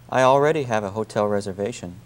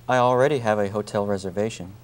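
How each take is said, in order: No difference in how they are said.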